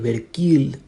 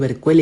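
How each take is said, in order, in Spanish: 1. La última sílaba se pronuncia como 'keel'. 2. La última sílaba se pronuncia como 'quail'. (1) "tal vez sea una raíz etimológica africana" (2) "yo lo leí Berquail"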